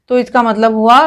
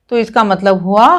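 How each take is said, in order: No difference in how they are said.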